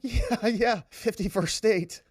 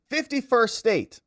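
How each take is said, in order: First: Lightly voiced Trudeau, mocking, drawn out and slow; a hint of a dismissive Trudeau brushing it off; slow, mocking take on Trudeau shrugging off fifty-first state. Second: Said in the usual way. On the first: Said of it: "He's like". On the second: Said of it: "then they should just become a state".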